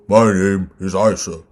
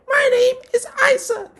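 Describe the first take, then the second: First: The voice is pitched low. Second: The voice is pitched high. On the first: "down here" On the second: "up here"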